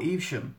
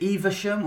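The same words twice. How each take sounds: First: "Evesham" said as EEV-shum; two-syllable pronunciation. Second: "Evesham" said as EE-vuh-shum; three-syllable pronunciation. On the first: Vlogger offering the second option, "Evesham" as EEV-shum. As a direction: run the v straight into the sh in "Evesham". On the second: Vlogger offering the first option, "Evesham" as EE-vuh-shum. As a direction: put a short uh in the middle of "Evesham". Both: Shown as a demonstration. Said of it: "Is it Evesham or Evesham?".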